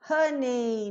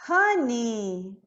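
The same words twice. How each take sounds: First: "honey" mispronounced as ho-NEI; HONEY with wrong NEI ending. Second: "honey" with a pure "nee" ending. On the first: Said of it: "não tem esse nei". ("honey" com final errado em "nei") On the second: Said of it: "eu vou pronunciar o quê". ("honey" com final em "ni") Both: Shown as a demonstration.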